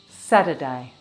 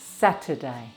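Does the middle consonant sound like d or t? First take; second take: d; t. First: The middle consonant is a d sound. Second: The middle consonant is a clear t sound.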